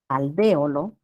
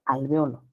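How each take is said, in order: First: Alvéolo as al-VE-o-lo, punched on VE; esdrújula stress. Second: Alveolo as al-ve-O-lo, stressed on O; grave stress. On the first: Teacher shows first form, alvéolo stressed on VE. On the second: Teacher shows second form, alveolo stressed on O. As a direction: shift the weight to O in alveolo. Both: Shown as a demonstration. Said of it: "¿Esdrújula o grave".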